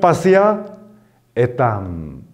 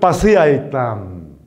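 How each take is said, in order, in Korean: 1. 두 낱말은 따로 말하며, 모음은 떨어뜨려 둡니다. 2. 두 낱말은 붙여서 말하며, 모음은 하나로 합칩니다. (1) "끊어 읽으면" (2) "이어 읽으면"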